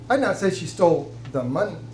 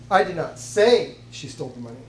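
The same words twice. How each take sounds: First: The word 'money' carries the main stress. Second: The word 'say' carries the main stress. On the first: Something other than the money was taken. "She may have stole something, but it wasn't the money" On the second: It may be true but is not being claimed. "It's possible she did, but I'm not saying it"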